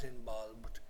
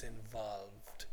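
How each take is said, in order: First: "involved" mispronounced with a b, like "inbolbed"; wrong b for v. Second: "involved" slowly with clear v sounds, softer; correct v sound. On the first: Teacher showing students what not to say, "involved" with b for v. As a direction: put a b in place of the v in "involved". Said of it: "And it's not involved". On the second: Teacher correcting Spanish students, clear slow v in "involved". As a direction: stretch "involved", teeth on lip for each v. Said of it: "it's involved". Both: Shown as a demonstration.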